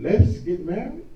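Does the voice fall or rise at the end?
rise. The voice rises at the end.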